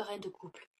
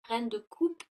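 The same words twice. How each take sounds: First: "couple" said with a clear final l, a slip for coupe; a natural fumble, "couple" instead of coupe; slip of the tongue. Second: "coupe" said cleanly with no l, louder; firm correction. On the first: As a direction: trips into "reine de couple" with the l sounded. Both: Real, not acted.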